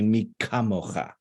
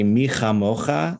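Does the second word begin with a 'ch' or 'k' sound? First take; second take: k; ch. First: The second word begins with a hard 'k' sound. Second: The second word begins with a throaty 'ch' sound. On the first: "the little dot that changes the chaf into a kaf" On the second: "the first time those that pair of words comes up"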